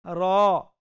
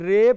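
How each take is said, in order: First: The letter name ends in an 'a' vowel. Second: The letter name ends in an 'e' vowel. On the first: The speaker calls it right. "रा ऐसे पढ़ना जाए" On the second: The speaker calls it wrong. "रे पढ़ने की बजाय"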